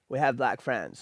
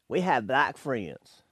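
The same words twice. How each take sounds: First: It is said in the speaker's ordinary accent. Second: It is said in a Southern US accent.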